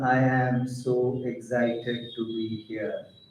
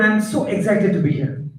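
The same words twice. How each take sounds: First: It is spoken slowly and without excitement. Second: It is spoken a little faster and excitedly. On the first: The speaker does not come across as excited. The speaker calls it wrong. "Doesn't sound excited" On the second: The speaker comes across as excited. The speaker calls it right. "When I speak it out a little faster, it sounds like I'm excited"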